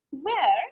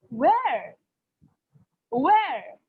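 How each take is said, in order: First: Where as a shorter questioning swoop; doubting, checking "Where"; doubtful. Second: Where with a big rise-and-fall swoop; astonished, drawn-out "Where"; surprised. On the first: Teacher asking to get it clear, doubtful Where. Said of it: "am in doubt, so how I will pronounce it". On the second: Teacher showing intonation for surprise, surprised Where. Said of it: "Like for surprise, what I will say". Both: Shown as a demonstration.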